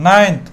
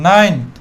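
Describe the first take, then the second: Both takes have the same delivery.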